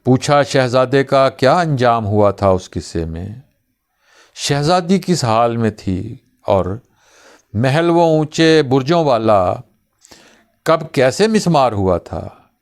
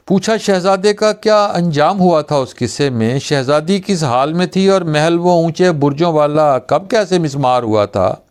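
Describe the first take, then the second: First: Questions recited one by one; measured, broken-up poetic questioning; poem recitation with pauses. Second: Higher-pitched run of questions without pauses; breathless-run verse recital, questions tumbling together; all in one breath. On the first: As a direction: pause after each question of the verse. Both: Acted. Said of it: "एक ही सांस में सब कुछ पूछ रहे हो".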